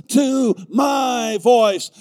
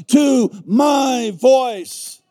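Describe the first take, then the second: No difference in how they are said.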